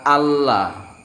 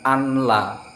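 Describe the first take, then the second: First: The n merges into a doubled l sound. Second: The n is sounded separately before the l. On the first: The speaker calls it right. "ini dibaca Allah" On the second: The speaker calls it wrong. "bukan anla"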